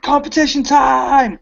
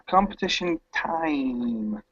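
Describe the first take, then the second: First: It is said with loud excitement. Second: It is said flatly, without excitement.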